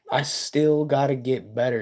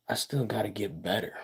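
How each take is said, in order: First: Said in the usual way. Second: Rushed and much softer, half to himself; quick quiet aside. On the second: Real, not acted. Streamer quietly admitting to chat he must improve. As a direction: toss it off softly and fast.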